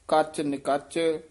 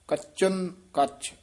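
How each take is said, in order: First: The n sound begins the second word. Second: The n sound is attached to the first word. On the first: This is how it is written. The speaker calls it wrong. "ਉਂਝ ਲਿਖਿਆ ਹੋਇਆ ਹੈ" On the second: This is how it should be recited. The speaker calls it right. "ਨੰਨੇ ਨੂੰ ਇੱਧਰ ਚੱਚੇ ਦੇ ਨਾਲ ਲਾ ਕੇ ਉਚਾਰਨ ਕਰਨਾ ਹੈ"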